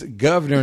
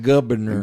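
First: The first syllable is pronounced 'gov'. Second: The first syllable is pronounced 'guv'. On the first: The speaker calls it right. "It's G-O-V" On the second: The speaker calls it wrong. "not G-U-V"

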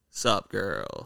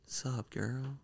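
First: It is said loudly. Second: It is said softly.

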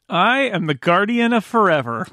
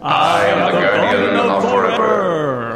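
First: It is said in his ordinary voice. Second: It imitates the Guardian of Forever's voice.

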